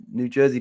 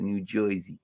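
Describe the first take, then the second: First: Said in the usual way. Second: "Jersey" said as "Joisey" in New York accent. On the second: Shown as a demonstration. Streamer showing what they almost said, New York accent. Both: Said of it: "I almost said it".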